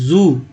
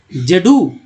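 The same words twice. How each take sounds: First: जू said as one syllable, "zoo"; correct word reading. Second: जेडू read as letter name "zed" plus "oo"; wrong spelled-out reading. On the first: Teacher gives learners the proper reading, as one blended word. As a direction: blend it into a single long-vowelled जू. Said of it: "पढ़ते हैं". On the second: Teacher shows learners how not to read zoo, letter by letter. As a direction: say जेडू in two syllables, "jed-oo". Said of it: "ऐसा तो नहीं पढ़ते हैं". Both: Shown as a demonstration.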